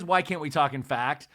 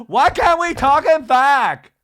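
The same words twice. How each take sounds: First: Said in the usual way. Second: Much higher, louder, slow mock scream; imitating Lisa's scream. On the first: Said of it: "She says". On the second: Imitating Lisa screaming at the women, mock scream. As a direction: shriek it, drawn out. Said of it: "she always screams".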